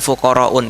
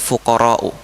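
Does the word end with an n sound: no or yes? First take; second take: yes; no. First: The word ends with an added n sound. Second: The word ends on a vowel without n. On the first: The speaker calls it wrong. "bukan fuqara'un" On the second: The speaker calls it right. "tapi fuqara'u"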